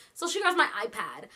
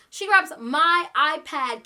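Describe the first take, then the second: First: Said in the usual way. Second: "grabs" hit loud and drawn out, each word slowed and pressed; slow the whole line right down and punch "grabs" hard; emphatic slow retelling. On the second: Shown as a demonstration.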